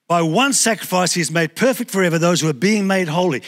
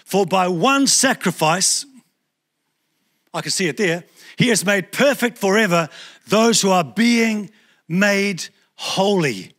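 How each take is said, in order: First: Said in the usual way. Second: Measured, slow reading of the verse; slow scripture read. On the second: Shown as a demonstration. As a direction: read it slowly, word by word. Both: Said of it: "Have a look in Hebrews ten fourteen".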